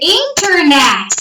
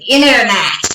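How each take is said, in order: First: The T in the middle is clearly pronounced. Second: The T in the middle is dropped. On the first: "nós falamos um pouquinho diferente" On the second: "o T da palavra internet desaparece"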